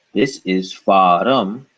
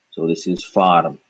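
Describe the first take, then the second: First: Farum said slowly with an uh after the r. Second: Farm said with r running straight into m; farm, one syllable. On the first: Teacher contrasts farum for students, slowly. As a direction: draw out farum as fa-rum. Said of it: "See what happened there". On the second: Teacher contrasts farm for students, no extra vowel. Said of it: "no more uh after ra". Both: Shown as a demonstration.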